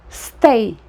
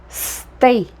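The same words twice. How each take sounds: No difference in how they are said.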